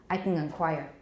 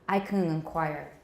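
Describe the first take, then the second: Both takes have the same delivery.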